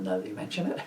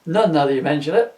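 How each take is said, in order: First: Said in the usual way. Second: Punchline delivered louder, ending on a rise; louder retake. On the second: Shown as a demonstration. Spirit redoing his line for Scrooge, louder. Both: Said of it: "That one was well telegraphed".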